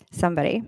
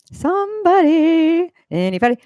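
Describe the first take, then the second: First: Said in the usual way. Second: Calling out. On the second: Real, not acted. Streamer asking silent chat for an answer, calling out. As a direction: sing it out long and high, fishing for an answer.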